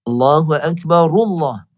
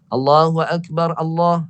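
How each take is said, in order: First: The r of Akbar carries a u into Allah. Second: The r of Akbar is stopped before Allah. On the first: The speaker calls it right. "mesti baris hadapan ra hidupkan. Macam ni begini" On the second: The speaker calls it wrong. "Jangan jangan iqamah macam ni. ... salah lah"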